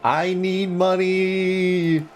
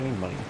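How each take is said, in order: First: It is yelled very loudly. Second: It is said at a normal volume.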